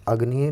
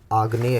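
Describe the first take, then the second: First: Said in the usual way. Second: आग्नेय with long aa stressed; correct form. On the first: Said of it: "नहीं होता है". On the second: Shown as a demonstration. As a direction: lengthen the first vowel of आग्नेय. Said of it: "होता है". (सही रूप आग्नेय, लंबा आ)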